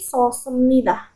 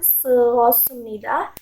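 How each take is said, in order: First: The first vowels merge into one single sound. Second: The first vowels are said as two separate sounds. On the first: The speaker calls it right. "tetapi sosemnida" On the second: The speaker calls it wrong. "Bukan seosemnida"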